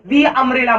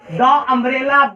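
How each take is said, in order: First: The word 'the' is said with a long 'ee'. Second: The word 'the' is said with a short 'uh'. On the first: The speaker calls it right. "दी umbrella बोलेंगे" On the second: The speaker calls it wrong. "द umbrella बोलना गलत होगा"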